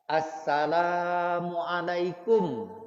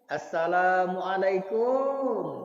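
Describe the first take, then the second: First: The final syllable 'kum' is short. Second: The final syllable 'kum' is drawn out long. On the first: The speaker calls it right. "la-nya yang panjang, kumnya tidak panjang" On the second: The speaker calls it wrong. "kumnya panjang"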